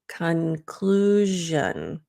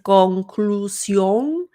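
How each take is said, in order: First: The vowels are reduced, English style. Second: The vowels keep full, spelled-letter sounds. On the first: The speaker calls it right. "it's not always o" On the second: The speaker calls it wrong. "So if you're saying conclusión"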